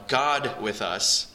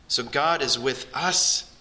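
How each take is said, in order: First: Slow, with God leaned on hard; stress on God. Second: Said in the usual way. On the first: Shown as a demonstration. Pastor stressing God for the congregation, slow and weighty. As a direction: dwell on God, then let with us follow. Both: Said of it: "Let's emphasize that first word".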